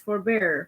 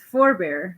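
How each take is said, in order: First: The stress falls on the second syllable. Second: The stress falls on both syllables. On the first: It is a verb meaning to refrain. "which is a verb in which the accent falls on the second syllable" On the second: It is a noun meaning an ancestor. "which is a noun and the accent falls on both syllables"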